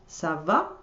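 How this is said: It is said with question intonation. It asks how someone is. "the first ça va is a question"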